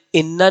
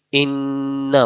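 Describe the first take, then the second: First: Said in the usual way. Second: انا with a long held nasal n, slowly; nasal ghunna on انا. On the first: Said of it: "حضور نے انا نہیں پڑھا". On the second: Shown as a demonstration. Teacher showing how the Prophet recited انا with ghunna. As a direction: hold the nn of انا in a humming nasal sound. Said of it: "حضور نے انا پڑھا".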